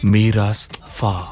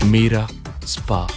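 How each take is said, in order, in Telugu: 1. విరుపు s శబ్దానికి తర్వాత వస్తుంది. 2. విరుపు s శబ్దానికి ముందు వస్తుంది. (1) "వాడు చెప్పింది మీరాస్ ఫా అని" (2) "సైమన్ చెప్పింది మీరా స్పా అని కాదు"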